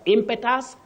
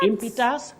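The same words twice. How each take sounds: First: The vowel after the m is short. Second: The vowel after the m is long. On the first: The speaker calls it wrong. "But impetus, no" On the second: The speaker calls it right. "E takes the long sound E. ... Impetus, yes"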